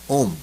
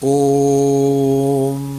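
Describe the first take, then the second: First: The vowel is held very briefly. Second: The vowel is held very long, ending in a hum. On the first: "एक ह्रस्व होता है" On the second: "लेकिन एक प्लुत होता है"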